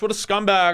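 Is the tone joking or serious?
joking. It is said in a light, joking tone.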